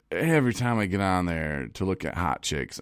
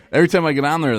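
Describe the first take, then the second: First: Said in the usual way. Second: Restarts the line while still laughing, quick and high; giggling after a cheeky joke; laughing through it. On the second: Real, not acted. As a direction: laugh it off and hurry on. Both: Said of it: "that was a joke".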